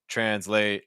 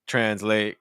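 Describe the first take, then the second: The two takes are said the same way.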